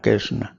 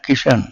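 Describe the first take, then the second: First: The name is reduced to a soft 'kaisna' form. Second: The name is said as a short 'kishan' form. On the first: This is how people of Braj say the name. "ब्रजवासी बोलते हैं" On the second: This is how Punjabi people say the name. "Punjabi लोगों का सुन लो"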